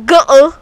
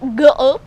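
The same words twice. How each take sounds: First: It is said loudly. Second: It is said at normal volume.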